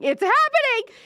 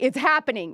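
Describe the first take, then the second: First: Squealed much higher and louder; excited scream. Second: Excited. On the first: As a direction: shriek it like the best news ever. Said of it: "I actually screamed". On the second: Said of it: "I actually screamed and I texted all my friends and I was like". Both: Retold or imitated.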